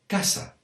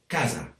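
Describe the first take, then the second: First: It is said in the central apitxat Valencian accent. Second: It is said in a non-apitxat Valencian accent. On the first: "in this part of the País Valencià, it's" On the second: "other areas that speak Valencian would say"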